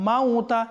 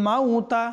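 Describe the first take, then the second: Both takes have the same delivery.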